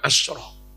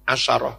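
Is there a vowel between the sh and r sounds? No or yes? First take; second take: no; yes. First: No vowel follows the sh sound. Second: A short a vowel follows the sh sound. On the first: The speaker calls it wrong. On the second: The speaker calls it right. "bacanya pakai fathah sin"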